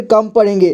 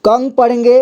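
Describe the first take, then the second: First: कम with an m ending; कं read as कम. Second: कंग with an ng sound; कं read as कंग. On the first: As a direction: say कम, closing the lips on m. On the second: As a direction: say कंग with a nasal ng ending. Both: Shown as a demonstration. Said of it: "तब हम इसे क्या पढ़ेंगे".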